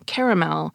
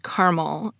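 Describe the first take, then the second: First: The word is said with three syllables. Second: The word is said with two syllables. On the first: This is the usual East Coast way. "the three-syllable pronunciation" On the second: This is the usual Western and Midwestern way. "I pronounced caramel as caramel"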